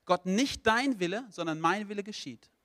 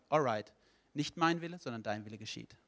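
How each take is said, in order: First: Insisting on own will. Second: Gentlemanly God conceding. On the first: Person tells God no all their life, insistent. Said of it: "Wenn du dein Leben lang sagst". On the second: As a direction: give in courteously, voice falling away. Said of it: "dann ist Gott Gentleman genug". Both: Acted.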